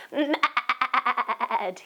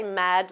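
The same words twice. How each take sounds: First: Growled mad. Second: Said in the usual way. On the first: Shown as a demonstration. Teacher showing the children how to say mad. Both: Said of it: "Can you say mad like that with me".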